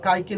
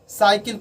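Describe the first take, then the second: First: The word begins with a k sound. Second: The word begins with an s sound. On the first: The speaker calls it wrong. "उसको काइकिल नहीं पढ़ते हैं" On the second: The speaker calls it right. "सी का कभी कभी जो उच्चारण करते हैं वह कभी कभी स्व के तरह करते हैं"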